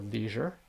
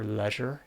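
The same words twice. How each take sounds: First: The word is said in an American accent. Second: The word is said in a British accent.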